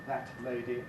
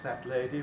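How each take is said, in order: First: The t has its own separate burst, slowly. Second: The t is released sideways into the l. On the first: It is used only in exceptional circumstances. "separate explosion, very slow, very careful" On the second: It sounds rather old-fashioned. "Lateral release"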